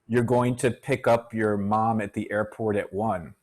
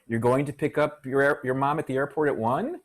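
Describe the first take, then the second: First: The voice falls at the end like a statement. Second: The voice rises at the end like a question. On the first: It is stated as a fact. "That's a statement" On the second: It is asked as a question. "That's a question"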